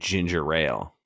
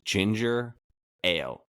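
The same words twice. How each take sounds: First: An extra r sound links into 'ale'. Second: The words join with no extra r sound. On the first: The speaker calls it wrong. "my mind makes me say" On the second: The speaker calls it right. "the way you're supposed to say it"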